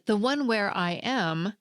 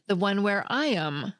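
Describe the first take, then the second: First: The word 'am' has a full vowel. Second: The word 'am' has a reduced vowel. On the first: "with strong forms are and am" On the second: "I didn't use the strong forms are and am, but I did still pronounce a vowel"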